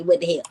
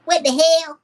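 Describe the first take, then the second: First: Said in the usual way. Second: High-pitched, loud attempted impression; Steve Brown. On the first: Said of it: "I'm just gonna say". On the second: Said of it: "What would Steve Brown say?".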